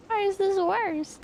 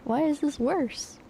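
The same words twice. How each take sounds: First: Higher, slower, baffled; high exasperated repeat. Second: Said in the usual way. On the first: Retold or imitated. Mock-baffled at the car that got worse. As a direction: throw the question up high in disbelief.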